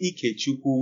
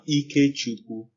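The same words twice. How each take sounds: First: Ike is said with an altered tone pattern. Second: Ike is said with its standard tone pattern. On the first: It means something different. "which I hear some people pronounce sometimes too" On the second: It means God's power or strength. "So you have EK Chukwu, God's power, God's strength"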